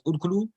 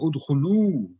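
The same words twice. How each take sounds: First: The final vowel is short and quick. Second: The final vowel is held for two counts. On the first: It could be confused with the singular form. The speaker calls it wrong. "if somebody is reading fast and it just reads as udkhulu" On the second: It clearly marks the plural command. The speaker calls it right. "there has to be two counts"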